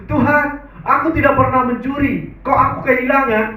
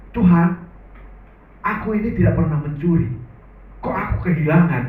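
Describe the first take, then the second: First: Higher and louder, pleading prayer; emphatic prayer. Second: Said in the usual way. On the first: Retold or imitated. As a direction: lift the prayer up high and press it. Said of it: "Dia bilang begitu". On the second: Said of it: "Saya yang menarik doanya begini".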